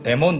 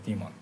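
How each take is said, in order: First: The first vowel sounds like 'eh'. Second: The first vowel sounds like 'ee'. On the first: "우리는 뭐 데몬 이렇게 부르기도 하는데" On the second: "보통 이제 영어식 발음은 디몬입니다"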